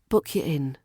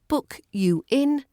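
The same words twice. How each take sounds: First: You is reduced to ya. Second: You is said fully.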